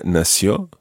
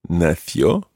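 First: Nació with the c as s; Latin American pronunciation. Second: Nació with the c as th; Castilian pronunciation. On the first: Teacher giving learners the American variant, nació with an s. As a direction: say nació with an s sound, no th. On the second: Teacher giving learners the word for born, Nació with a Castilian th. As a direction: say Nació with a Spain-style th sound. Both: Shown as a demonstration. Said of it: "Or in Latin America".

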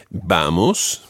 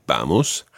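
First: Said in the usual way. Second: Vamos with BA stressed, lower pitch; stress on first syllable. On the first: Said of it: "Vamos, the stress on the first syllable". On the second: Shown as a demonstration. Teacher modelling the word Vamos for learners, BA stressed. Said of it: "the stress on the first syllable".

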